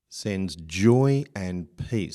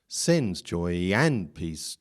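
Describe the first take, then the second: First: The word sends is weak; joy is stressed. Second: The word sends carries strong stress. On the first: The speaker calls it right. "by making sends weak, then joy and peace are fitting into their natural strengths" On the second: The speaker calls it wrong. "if we said sens was strong, we may get into trouble"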